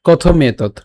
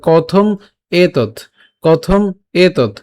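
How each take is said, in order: First: কথম এতৎ joined as kothometot; run together. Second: কথম, pause, এতৎ; split words. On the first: Teacher joins the words, কথম এতৎ in one breath. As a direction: glide the m of কথম straight into এতৎ. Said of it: "একসাথে উচ্চারণ করলে". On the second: Teacher separates the e vowel, কথম and এতৎ split by a pause. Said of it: "সেই একারটাকে আলাদা করে". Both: Shown as a demonstration.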